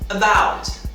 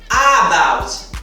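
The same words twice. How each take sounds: First: The first vowel is reduced and very weak. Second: The first vowel is full and emphasized. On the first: The speaker calls it right. "uma pronúncia mínima, disfarçada" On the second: The speaker calls it wrong. "E não about"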